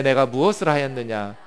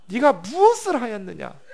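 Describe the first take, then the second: First: Said in the usual way. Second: 무엇을 pushed higher and louder, 네가 무엇을 하였느냐 as an accusation; stern divine confrontation. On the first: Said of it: "이르시되". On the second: Acted. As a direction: confront him like a judge. God confronting Cain.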